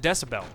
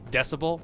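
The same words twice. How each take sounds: First: The word is pronounced in an altered way. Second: The word has its usual standard pronunciation. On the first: "they pronounce it decibel" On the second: "how it's actually pronounced"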